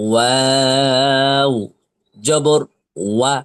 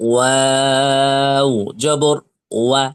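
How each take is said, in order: The two takes are said the same way.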